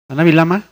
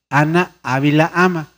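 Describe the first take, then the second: First: The words are said fast and run together. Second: Each word is said clearly and separately. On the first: The speaker calls it wrong. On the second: The speaker calls it right.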